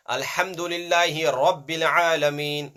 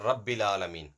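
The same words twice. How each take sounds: First: Chanted, heavy rounded RA in RABBIL; thick Ra. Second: Unchanted, thin light RA in RABBIL; thin out the RA of RABBIL, lower; wrong thin Ra. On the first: Teacher modelling recitation for pupils, thick RA. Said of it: "it has to come out with a thick tone". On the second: Teacher showing pupils the mistake, thin RA. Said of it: "not Rabbil Alameen". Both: Shown as a demonstration.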